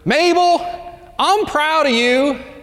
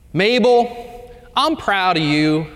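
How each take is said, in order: First: It is said as loudly as possible. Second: It is said a little louder.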